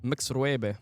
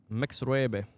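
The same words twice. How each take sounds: The two takes are said the same way.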